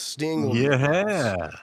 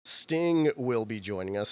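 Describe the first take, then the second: First: Booming hype-man announcement, louder; announcer voice. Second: Said in the usual way. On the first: Shown as a demonstration. Host hyping the Sting booking, announcer boom. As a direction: announce it like a big arena reveal.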